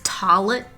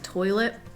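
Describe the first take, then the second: First: It is said with a regional pronunciation. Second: It is said with the standard pronunciation. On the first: An older relative says it this way. "she says toilet" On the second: Most people say it this way. "instead of toilet"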